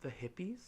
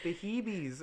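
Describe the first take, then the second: First: Said in the usual way. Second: "Hebes" said with long ee vowels, grandma's Puerto Rican way; accented Hebes. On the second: Retold or imitated. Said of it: "the thickest Puerto Rican accent".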